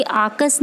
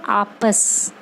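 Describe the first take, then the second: First: आकस with a k sound; the pupils' mistake आकस; wrong pronunciation. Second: आपस with a clear प; correct pronunciation. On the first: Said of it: "ये आकस नहीं है". (ग़लत उच्चारण आकस) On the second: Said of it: "ये आकस नहीं है, आपस". (साफ़ प वाला आपस) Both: Shown as a demonstration.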